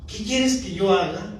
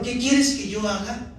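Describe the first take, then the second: First: Said in the usual way. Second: Earnest plea. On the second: Retold or imitated. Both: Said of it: "Señor".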